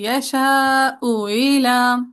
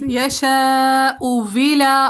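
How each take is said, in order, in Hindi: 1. दूसरा हमज़ा हल्का कर दिया जाता है, पूरा नहीं बोला जाता। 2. दूसरा हमज़ा एक साफ़ w की आवाज़ बन जाता है। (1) "फिर आप कर देंगे सेकंड हमजा में तस्हील" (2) "पहले आप कर देंगे सेकंड हमजा में इब्दाल"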